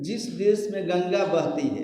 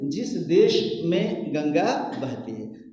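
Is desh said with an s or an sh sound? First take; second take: s; sh. First: Desh ends with a plain s sound. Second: Desh ends with an sh sound. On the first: The speaker calls it wrong. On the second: The speaker calls it right.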